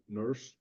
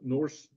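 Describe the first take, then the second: First: The vowel sounds like the 'ur' in 'hurt'. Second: The vowel sounds like the 'or' in 'horse'. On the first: "they oftentimes pronounce it nurse" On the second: "it's spelled Norse"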